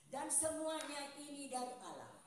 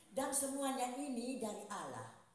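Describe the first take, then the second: Both takes have the same delivery.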